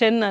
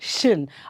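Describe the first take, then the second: First: The syllable is said with a vowel like 'shen'. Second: The syllable is said with a vowel like 'shin'. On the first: The speaker calls it wrong. "ಶೆನ್ ಅಲ್ಲ" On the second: The speaker calls it right.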